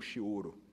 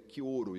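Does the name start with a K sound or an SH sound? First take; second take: SH; K. First: The name begins with a soft SH sound. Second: The name begins with a hard K sound. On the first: The speaker calls it wrong. "e não Chioro" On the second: The speaker calls it right. "a pronúncia correta do ministro da Saúde é Quioro"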